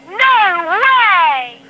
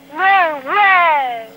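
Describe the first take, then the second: First: It is shouted very loudly. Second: It is said at a normal volume.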